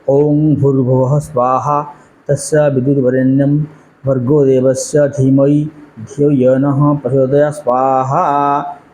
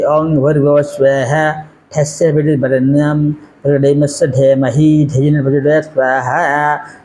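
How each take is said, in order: First: Each Sanskrit sound is articulated carefully and clearly. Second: Several Sanskrit sounds are garbled and carelessly altered. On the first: The speaker calls it right. "it's the way of mm, pronouncing our holy Sanskrit words" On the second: The speaker calls it wrong. "are you comfortable with this kind of pronunciation in Sanskrit? ... Of course not"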